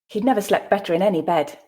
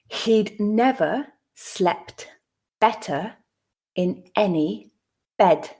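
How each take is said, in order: First: The sentence is read at a natural speed. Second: The sentence is read slowly and deliberately. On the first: "at a more natural pace" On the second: "the first time slowly"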